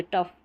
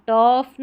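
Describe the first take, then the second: First: "टफ" with a quick uh vowel; short vowel. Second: "टफ" with a drawn-out aw, as the mistake; wrong long vowel. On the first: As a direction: say "टफ" as a short tuff. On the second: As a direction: stretch "टफ" into a long tawf. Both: Shown as a demonstration. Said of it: "टफ नहीं बोले".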